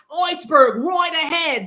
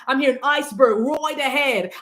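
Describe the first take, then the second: First: Lookout's warning call. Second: Said in the usual way. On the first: Retold or imitated. Lookout on the Titanic calling out the iceberg warning. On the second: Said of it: "That's what I'm hearing".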